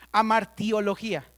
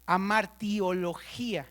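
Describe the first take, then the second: First: Said in the usual way. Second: Slow amartiología, weight on the final í: amartio-lo-GÍ-a; stress on the last i. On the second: Shown as a demonstration. Teacher to class, spelling out the term: slow, stressed final í. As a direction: say amartiología slowly and land on the í. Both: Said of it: "Acento en la última I".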